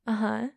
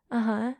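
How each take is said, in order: Both takes have the same delivery.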